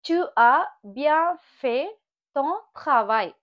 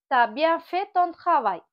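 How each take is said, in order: First: The word tu is said in full. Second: The word tu is shortened to t.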